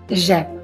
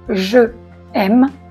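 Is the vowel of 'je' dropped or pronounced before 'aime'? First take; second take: dropped; pronounced. First: The vowel of je is dropped. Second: The vowel of je is fully pronounced. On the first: The speaker calls it right. "on dit j'aime" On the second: The speaker calls it wrong. "On ne dit pas je aime"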